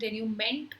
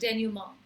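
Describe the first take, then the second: First: The word ends with a 'ment' sound. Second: The word ends with a 'ma' sound. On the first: The speaker calls it wrong. "I know डेन्यूमेंट होना चाहिए लेकिन no" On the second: The speaker calls it right. "It's pronounce as डेन्यूमा"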